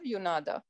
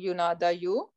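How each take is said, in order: First: The word ends with a long 'ah' sound. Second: The word ends with an 'oo' sound. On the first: The speaker calls it right. "rather yunada" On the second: The speaker calls it wrong. "we are not uh, um, saying yunada you"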